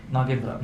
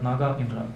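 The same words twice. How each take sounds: First: Said in the usual way. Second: "Naga Indra" as two separate words, Naga then Indra; name split apart. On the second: Shown as a demonstration. Cobra king explains his name, "Naga Indra" split into two words. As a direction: undo the blend, saying "Naga Indra" in its two parts.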